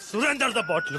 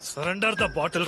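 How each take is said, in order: First: The first word sounds like the name 'Surender'. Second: The first word sounds like English 'surrender'. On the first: The bottle belongs to someone named Surender. The speaker calls it wrong. "సురేందర్ the bottle కాదు" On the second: Hand over the bottle. The speaker calls it right. "సరెండర్ the bottle రాది"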